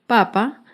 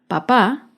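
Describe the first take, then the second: First: The stress is on the first syllable. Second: The stress is on the second syllable. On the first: It refers to the food, the potato. "Papa lleva el acento en la primera sílaba" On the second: It refers to a family member, the father. "papá lleva el acento en la segunda sílaba"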